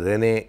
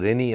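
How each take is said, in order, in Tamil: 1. பெயர் 'ay' உயிரெழுத்தில் முடிகிறது. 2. பெயர் 'ee' உயிரெழுத்தில் முடிகிறது. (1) "ரெனே என்று கூட இருக்கலாம்" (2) "என்னுடைய ஒலிப்பு உச்சரிப்பு ஒரு வேளை தவறாகவும் இருக்கலாம்"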